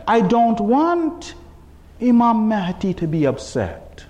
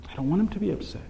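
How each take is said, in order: First: Slow, deliberate delivery; slow, weighty. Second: Soft, inward aside; hushed repeat. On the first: Preacher giving his reason not to sin, slowly and weightily. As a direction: let each word land. First, emphatic statement of reason. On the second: Preacher repeating his reason not to sin, hushed. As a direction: say it quietly, as to yourself. Same thought repeated softly. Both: Real, not acted.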